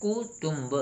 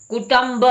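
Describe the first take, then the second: First: कुटुंब as "ku-tumb", with "u" as in "put" twice; soft कुटुंब with matching "u" vowels; corrected pronunciation. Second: कुटुंब as "ku-tamb", with "a" in the second syllable; high-pitched "kutamb" for कुटुंब; mispronounced कुटुंब. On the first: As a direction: say कुटुंब softly as "koo-TOOMB". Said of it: "होना क्या चाहिए". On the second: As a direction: say कुटुंब as "koo-TUMB", rhyming with English "thumb", higher. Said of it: "ये गलत है". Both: Shown as a demonstration.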